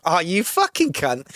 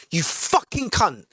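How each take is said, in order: First: Fond, easy-going jab between mates; mild affectionate ribbing; friendly insult. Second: Slow, cold, menacing insult; slow nasty jab meant to wound; hostile slur. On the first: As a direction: tease a good friend. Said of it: "It's not offensive". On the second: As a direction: spit it out like you mean harm. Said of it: "the intent with which you say it". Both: Shown as a demonstration.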